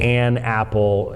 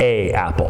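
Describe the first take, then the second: First: An n sound links the two vowels. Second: The two vowels run together with no n. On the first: The speaker calls it right. "you're supposed to say an apple" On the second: The speaker calls it wrong. "not a apple"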